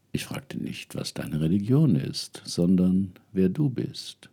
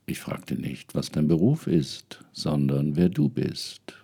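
First: Whispering elder spirit. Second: Hushed, whispered spirit voice; whispering elder spirit. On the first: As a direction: whisper the question from beyond. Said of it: "Dann sagte die Frau". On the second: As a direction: whisper it like an ancestor. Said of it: "war die Antwort". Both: Acted.

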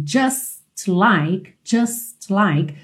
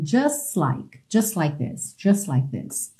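First: "just like" with the T of "just" still sounded; separate words. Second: "just like" linked as "jusslike"; lower, softer, S running straight into "like"; dropped T. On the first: Teacher showing the written form, "just like" with the T. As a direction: keep "just" and "like" apart, T audible. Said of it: "você acaba omitindo mesmo esse T". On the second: Teacher showing the linking, "just like" without the T. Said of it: "já junta o S do just no like". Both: Shown as a demonstration.

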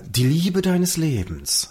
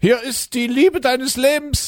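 First: Slowly spelling out the line; feed the line slowly to the partner; slow line read. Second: High, slow put-on woman's voice; Annette from Schlettau. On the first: Shown as a demonstration. Podcast host slowly dictating the punchline line. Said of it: "du hast den Satz, äh, zu sagen". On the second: At the door, S1 plays Annette in a high slow voice. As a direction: play a sweet woman from Schlettau, pitched high. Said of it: "ich bin jetzt also die Annette".

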